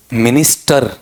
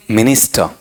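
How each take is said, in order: First: minister with a long, stressed final र; heavy drawn-out र at the end of minister; wrong stress. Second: minister with a short, weak final syllable; light ending. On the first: Teacher showing the wrong way, stressing the final र. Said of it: "रै पे सऊ ज्यादा जोर दें". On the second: Teacher showing the right way, short light ending. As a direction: keep the end of minister tiny. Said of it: "इतना सा". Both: Shown as a demonstration.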